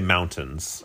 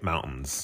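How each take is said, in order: First: The word is said a non-local way. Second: The word is said the local Utah way. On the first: "We don't say mountains" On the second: "here in Utah, we say mountains, like I just said"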